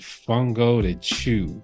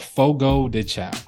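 First: The name ends with a 'chew' sound. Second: The name ends with a 'chow' sound. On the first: The speaker calls it wrong. "My dad calls it Fungo de Chew" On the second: The speaker calls it right. "it's called Fogo de Chao. Not that hard"

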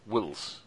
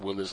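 First: The name is said with one syllable. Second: The name is said with two syllables. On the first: The speaker calls it right. "It's W-I-L-E-S. Wills" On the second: The speaker calls it wrong. "It's not like Willis"

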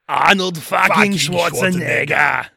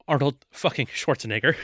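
First: The phrase is said loudly, with heavy force. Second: The phrase is said lightly, with little force. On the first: "It needed to be fucking" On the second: "Real light fucking on this one"

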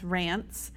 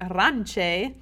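First: The name is said as one syllable. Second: The name is said as two syllables. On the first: The speaker calls it right. "you pronounce the name R-A-N-C-E as Rance" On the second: The speaker calls it wrong. "he was pronouncing it Ranche"

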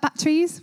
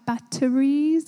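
First: It is said with an Ipswich accent. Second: It is said with a standard accent.

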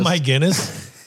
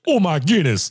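First: It is said in the speaker's plain accent. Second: It is said in a put-on Irish accent.

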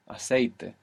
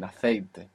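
First: It is said without a Spain Spanish accent. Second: It is said with a Spain Spanish accent.

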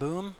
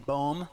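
First: The vowel sounds like 'oo' in 'moon'. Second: The vowel sounds like 'oh' in 'bone'. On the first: The speaker calls it wrong. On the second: The speaker calls it right.

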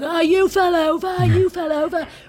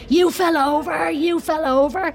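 First: It is said in a put-on English accent. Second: It is said in a plain Irish accent.

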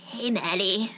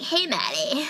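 First: An impression in a less girly voice. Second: An impression in a more girly voice.

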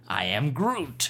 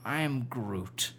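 First: The voice sounds happy and bright. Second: The voice sounds let down and deflated. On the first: "All right, happy" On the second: "A little bit disappointed"

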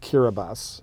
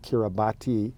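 First: The 'ti' is said as an s sound. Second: The 'ti' is said with a t sound. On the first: The speaker calls it right. "but it's actually pronounced" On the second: The speaker calls it wrong. "It looks like"

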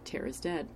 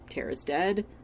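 First: It is said flat, with no emotion. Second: It is said with some emotion. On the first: "flat affect" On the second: "not even like as much emotion as I just said it with"

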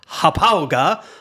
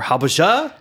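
First: The name is said with a German-like sound. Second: The name is said with an American sound.

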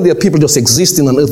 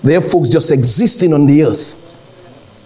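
First: It is said fast. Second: It is said slowly.

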